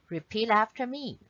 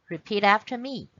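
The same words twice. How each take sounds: No difference in how they are said.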